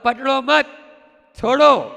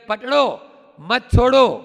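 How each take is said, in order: First: The pause comes after the word 'मत'. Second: The pause comes after the first word 'पकड़ो'.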